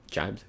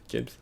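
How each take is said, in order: First: "Jibes" said as jyebz with a long i; "Jibes" with a j sound and long i, rising; pronounced jibes. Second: "Jibs" as shibz, short vowel, higher; pronounced jibs. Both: Shown as a demonstration.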